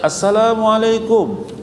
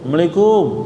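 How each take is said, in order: First: The greeting is pronounced clearly and fully. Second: The greeting is slurred and unclear. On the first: The greeting is a real wish of peace. The speaker calls it right. "kalau dia fasih" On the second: The greeting may hide a curse instead of peace. The speaker calls it wrong. "ini nggak jelas nih"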